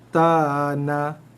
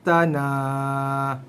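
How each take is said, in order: First: The final vowel is short. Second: The final vowel is drawn out long.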